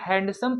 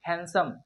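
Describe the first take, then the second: First: The d sound is pronounced. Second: The d sound is left out. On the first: The speaker calls it wrong. "ये गलत माना जाएगा" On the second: The speaker calls it right. "इसे हम लोग हैंडसम पढ़ेंगे"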